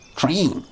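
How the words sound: The vowel sounds like a long ee. "You probably say it like T R E E N"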